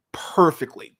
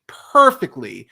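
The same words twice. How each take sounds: First: Said in the usual way. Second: Perfectly punched louder with a falling finish; louder repeat of perfectly; stress on perfectly. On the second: Real, not acted. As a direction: hit the word perfectly hard.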